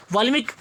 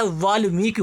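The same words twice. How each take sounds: First: वाल्मीकि as wrongly written; misspelt word read out. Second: वाल्मीकि with a drawn-out long "mee"; वाल्मीकि, slowly, long ee in the middle; long vowel shown. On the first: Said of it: "अशुद्ध लिखा है". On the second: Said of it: "मीकी बड़ी". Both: Shown as a demonstration.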